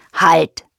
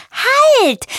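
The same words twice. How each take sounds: First: Firm single-word call; hippo calling out. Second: High, loud playful bird shout; much higher, louder chirped exclamation; chirping bird. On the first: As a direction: call a halt as a big steady animal. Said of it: "ruft Helmut". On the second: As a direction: call out like an excited little bird. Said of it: "zwitschert Froni und lacht". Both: A narrator's reading.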